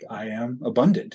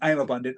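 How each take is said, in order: First: It is said slowly and calmly. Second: It is said quickly and hurriedly.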